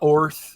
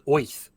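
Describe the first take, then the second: First: It is said plainly, without a put-on accent. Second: It is said in a cartoonish New York accent. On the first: "so I call it Orth" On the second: "with this kind of Bugs Bunny accent"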